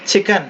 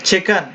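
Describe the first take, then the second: No difference in how they are said.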